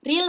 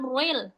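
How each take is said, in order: First: Ril with a light R and clear i; thin, unrounded ril. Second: Ril rounded into a heavy ruil; wrong thick R in ril. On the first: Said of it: "Ri di sini bacanya tipis". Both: Shown as a demonstration.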